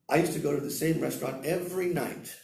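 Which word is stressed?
night. The word night carries the main stress. It was at night, not at lunch. "not for lunch, at night"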